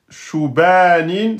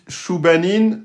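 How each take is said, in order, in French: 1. Le b est simple ; la voyelle après lui est longue. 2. Le b est simple ; la voyelle après lui est courte. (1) "c'est faux, vous avez oublié la shadda" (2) "vous avez oublié la shadda et le alif"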